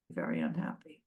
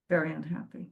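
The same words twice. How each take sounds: First: Very unhappy dropped low and soft; very unhappy murmured much lower and softer; hushed emphasis. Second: Said in the usual way. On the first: Retold or imitated. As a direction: say very unhappy as a sinking hush.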